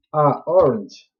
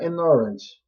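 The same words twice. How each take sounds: First: "a orange" said as the wrong example; wrong take. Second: "an orange" said as the right form; correct take. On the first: Teacher showing students the wrong article. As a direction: read "a orange" flatly as the mistake. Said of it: "tá errado". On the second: Teacher showing students the correct article. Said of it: "tem que colocar an orange". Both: Shown as a demonstration.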